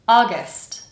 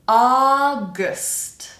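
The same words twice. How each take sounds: First: The word is said at normal speed. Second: The word is said slowly and carefully. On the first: "the second time normally" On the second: "The first time kind of slowly"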